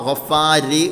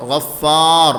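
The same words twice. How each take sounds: First: ഗഫാരി with an extra i vowel after the r; the wrong way, adding i at the end of ഗഫാരി; wrong added vowel. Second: ഗഫാർ ending in a full heavy r, no vowel after it; correct heavy r. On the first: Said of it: "എന്നല്ല പറയേണ്ടത്". (ഗഫാരി എന്ന് അവസാനം ഇ ചേർത്ത തെറ്റായ ഉച്ചാരണം) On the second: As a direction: say ഗഫാർ with a clean stopped heavy r. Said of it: "ഗഫാരി എന്നല്ല പറയേണ്ടത്". (ഗഫാർ കനത്ത റായോടെ, അവസാനം സ്വരമില്ലാതെ) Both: Shown as a demonstration.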